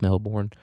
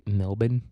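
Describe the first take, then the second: First: Melbourne with a clear R in "born"; R pronounced. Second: Melbourne said Australian-style, with the R dropped; clipped-down "Melbourne" ending in an unstressed "bən"; Australian pronunciation. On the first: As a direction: say Melbourne as "MEL-born", full second syllable. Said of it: "Let's say the R". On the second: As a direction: say Melbourne as "MEL-bən", weak second syllable. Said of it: "as Australians would say". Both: Shown as a demonstration.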